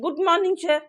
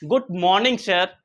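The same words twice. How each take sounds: First: The greeting sounds hesitant and weak. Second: The greeting sounds confident and firm. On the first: The speaker calls it wrong. "अब ऐसा नहीं" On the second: The speaker calls it right. "एकदम confident के साथ में"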